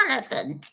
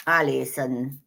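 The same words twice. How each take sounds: First: Whispered name, higher. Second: Said in the usual way. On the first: Shown as a demonstration. Reader whispers a viewer's name on the live stream. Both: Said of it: "I have to say it in every voice now".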